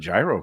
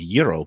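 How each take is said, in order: First: Gyro is said with an anglicized pronunciation. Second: Gyro is said with a Greek-style pronunciation. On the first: The speaker calls it wrong. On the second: The speaker calls it right.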